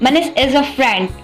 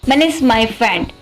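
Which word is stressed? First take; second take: friend; Manish. First: The stress falls on the word friend. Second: The stress falls on the word Manish. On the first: He is a friend, not an enemy. "Not in me" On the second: It is this person and no one else. "Not any one but Manish"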